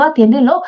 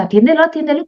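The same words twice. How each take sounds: First: "atiéndelo" lifted into a light rising urge; a touch of nagging alarm, "atiéndelo" tipping upward; mild urgent repeat. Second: "Atiéndelo, atiéndelo" pitched higher, quick and pressing; a jittery alarm, "Atiéndelo, atiéndelo" jumping up high; nervous urgent nagging. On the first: Mother voicing her amygdala, a mild rising "atiéndelo". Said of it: "te va a volver a insistir". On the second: Mother voicing her amygdala's panic, higher nervous "Atiéndelo, atiéndelo". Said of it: "te va a poner muy nervioso". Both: Retold or imitated.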